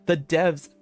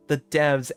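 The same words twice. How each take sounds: The two takes are said the same way.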